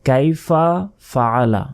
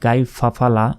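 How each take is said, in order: First: The two words are kept apart as separate words. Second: The two words are run together as one. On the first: The speaker calls it right. "আলাদা আলাদাভাবে বলতে হবে" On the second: The speaker calls it wrong. "দুইটা শব্দ একত্রিত হয়ে গেল"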